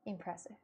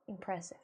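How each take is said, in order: First: Breathy awed whisper. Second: Said in the usual way. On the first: Real, not acted. Viewer impressed by fake tears, whispered in awe.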